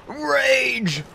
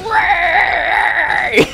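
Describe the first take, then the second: First: High-pitched parody of raging; mock rage. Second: Very high, loud parody shriek; mock raging scream. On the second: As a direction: scream it like a hammed-up tantrum. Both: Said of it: "raging and raging and raging".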